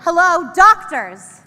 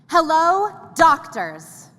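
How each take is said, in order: First: It is said louder, with big energy. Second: It is said with normal energy.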